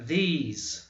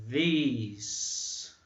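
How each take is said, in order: First: These with a long I vowel; teacher repeating the word; TH demo again. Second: These with the tongue between the teeth; teacher showing the TH sound; TH demo. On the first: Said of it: "o som do E é semelhante ao I". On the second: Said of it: "D falado entre a língua, assim, ó". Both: Shown as a demonstration.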